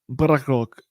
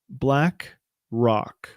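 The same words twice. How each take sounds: First: The two parts are slurred together quickly. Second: Both parts are clearly and separately enunciated. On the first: The speaker calls it wrong. "it could sound like you're mixing words up" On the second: The speaker calls it right. "you gotta enunciate that clearly"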